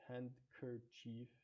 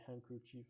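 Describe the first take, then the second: First: All the n, d, k sounds are pronounced. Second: Some of the n, d, k sounds are dropped. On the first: The speaker calls it wrong. "We don't say the N D K sounds as whole. We don't say handkerchief" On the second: The speaker calls it right. "we just say handkerchief"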